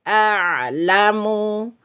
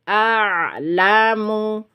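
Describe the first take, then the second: Both takes have the same delivery.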